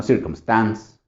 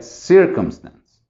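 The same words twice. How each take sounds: First: CircumSTANCE, stress moved to the last syllable; slow circum-STANCE, shown as wrong; wrong final stress. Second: CIRcumstance, first syllable punched, then falling; settled, slow CIR-cumstance; stress on first syllable. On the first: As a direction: punch the STANCE in circumstance as the mistake. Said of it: "no circumstance". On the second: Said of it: "Entonces sería circumstance". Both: Shown as a demonstration.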